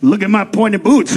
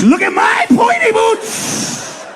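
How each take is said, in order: First: Said in the usual way. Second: High, slow excited shout. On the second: Acted. Mexican showing off his pointy boots, high and slow. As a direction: show off the boots in squealing delight. The same line repeated with excitement.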